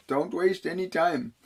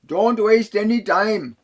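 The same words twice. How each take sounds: First: Said in the usual way. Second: Slow, loud, and higher, leaning hard on "any"; urgent warning. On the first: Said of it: "is the way I heard it". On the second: Retold or imitated. Relaying the spirit message he heard in his head: slow, loud, insistent. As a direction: push "Don't waste any time" as an urgent command, stressing "any". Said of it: "is the way I heard it in my head originally".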